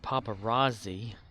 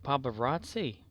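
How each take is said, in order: First: The last consonant sounds like 'z'. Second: The last consonant sounds like 'ts'.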